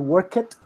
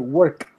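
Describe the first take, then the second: First: The ending is an extra syllable. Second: The ending is a plain t sound. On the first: The speaker calls it wrong. "You don't say work it" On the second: The speaker calls it right. "You say work"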